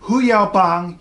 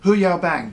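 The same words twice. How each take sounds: First: It sounds closer to the Chinese name. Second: It sounds like the English phrase 'who you bang'. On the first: The speaker calls it right. "you can't go wrong" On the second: The speaker calls it wrong. "Don't say that. Hu Yao Bang is what you say if you're asking a friend who they're sleeping with"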